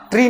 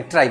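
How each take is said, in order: First: ट्री said like English tree, long ee vowel; ट्री with a plain long ee, as a mistake to avoid; wrong pronunciation. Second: ट्राई said like English try, with an ai glide; ट्राई with a clear rising ai diphthong; correct pronunciation. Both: Shown as a demonstration. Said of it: "ट्री नहीं बोलते, ट्राई बोलते".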